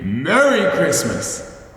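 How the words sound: It is said low and quiet.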